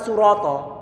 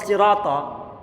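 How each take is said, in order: First: The first vowel is rounded, sounding like u. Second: The first vowel is unrounded, sounding like i. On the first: The speaker calls it wrong. "Karena bibir dimonyongkan di saat mengucapkan shotnya" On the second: The speaker calls it right. "Kok bukan siratal?"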